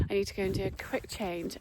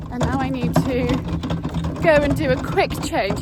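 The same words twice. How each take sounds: First: Said in the usual way. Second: Louder, over the rattling wheelbarrow; talking loudly over yard noise; raised voice. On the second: Real, not acted. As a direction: speak up over a noisy wheelbarrow. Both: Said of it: "you can't hear with rattling wheelbarrow".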